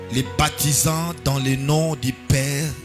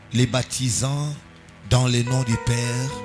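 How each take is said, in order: The two takes are said the same way.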